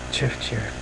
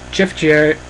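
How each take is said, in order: First: Much softer, muttered repeat of "Jeff Jarrett"; quiet echo. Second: Said in the usual way. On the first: Shown as a demonstration. The name keeps repeating in his head, in a much softer muttered echo. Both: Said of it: "this is what happens".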